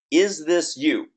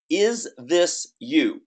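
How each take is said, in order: First: Said in the usual way. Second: Slow emphatic question. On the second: Shown as a demonstration. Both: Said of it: "repeated headline question".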